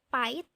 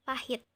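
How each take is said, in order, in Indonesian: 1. Bunyi 'h' di tengah dihilangkan. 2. Bunyi 'h' di tengah terdengar. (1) "terjadi penghilangan huruf H" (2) "yang seharusnya kita ucapkan adalah pahit"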